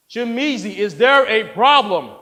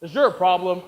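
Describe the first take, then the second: First: Loud, higher confrontation; stern demand. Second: Said in the usual way. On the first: Acted. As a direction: press the question hard and loud. Director confronts objecting reader.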